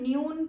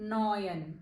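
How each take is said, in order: First: The vowel sounds like 'yoo'. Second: The vowel sounds like 'oy'. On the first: The speaker calls it wrong. "ન્યૂન કેવું કંઈ નહીં વચાય" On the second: The speaker calls it right. "ઓય સાઉન્ડ નીકળશે"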